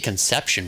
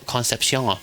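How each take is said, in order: First: It sounds like the English word conception. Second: It is pronounced in a more French-sounding way. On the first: "I want to say Conception, but there's no T there" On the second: "more more French"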